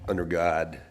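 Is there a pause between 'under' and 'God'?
no. The two words run together without a pause. "I learned uh, under God"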